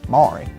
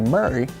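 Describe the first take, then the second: First: The first vowel sounds like the one in 'more'. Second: The first vowel sounds like the one in 'hurry'. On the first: The speaker calls it wrong. "and not Maury" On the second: The speaker calls it right. "the correct pronunciation is supposed to be Murray"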